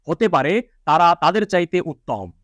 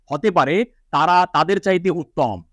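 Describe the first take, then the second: No difference in how they are said.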